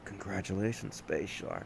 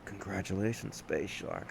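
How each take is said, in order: First: It is said in a put-on sexy voice. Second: It is said in a put-on sexy voice.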